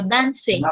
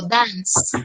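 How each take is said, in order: First: "dance" said wrongly as "danse", the final E sounded; mock wrong "danse" with a voiced final E; wrong pronunciation. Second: "dance" said as "dans", ending on a plain S sound; right pronunciation. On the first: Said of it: "yo no digo dance". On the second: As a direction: say "dance" slowly with no final vowel. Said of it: "yo digo dance". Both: Shown as a demonstration.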